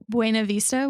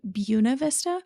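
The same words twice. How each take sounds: First: The name is said the standard way. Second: The name is said a different, local way. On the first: "which is like the proper way to pronounce it" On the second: "We have a town here in Colorado called"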